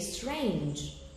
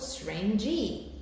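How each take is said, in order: First: The word ends without an extra vowel sound. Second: An extra vowel sound follows the final consonant. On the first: The speaker calls it right. "You say strange" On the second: The speaker calls it wrong. "So you don't say, for example, strange E"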